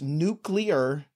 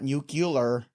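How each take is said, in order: First: It is said nook-lee-er, with no extra vowel. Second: It is said nook-yuh-ler, with an extra vowel. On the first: The speaker calls it right. "it's nuclear" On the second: The speaker calls it wrong. "not nuclear. There's no extra U in there"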